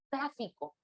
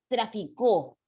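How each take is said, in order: First: The stress is on the first syllable. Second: The stress is on the third syllable. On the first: "si lo doy un acento esdrújulo" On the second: "Si yo coloco un acento agudo"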